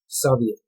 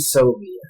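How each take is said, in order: First: The word is pronounced the Russian way. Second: The word is pronounced the American English way. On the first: "when you speak Russian, it's Soviet" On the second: "we say Soviet"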